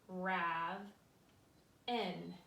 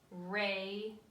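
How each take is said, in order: First: The first vowel is short, as in 'have'. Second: The first vowel is long, as in 'ray'. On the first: The speaker calls it wrong. "If I went here, this would say rav n" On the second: The speaker calls it right. "the A is long and strong"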